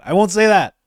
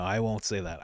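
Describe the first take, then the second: First: "I won't say that" much louder and higher; loud insistence. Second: "I won't say that" much softer and lower, held back; quiet restraint. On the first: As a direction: declare it firmly. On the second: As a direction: mutter it to yourself. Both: Real, not acted.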